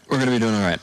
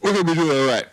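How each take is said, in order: First: Said in the usual way. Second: Loud, high rallying cry; hyped cheer. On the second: Real, not acted. Host rallying the players with a loud cheer. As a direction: pump everyone up.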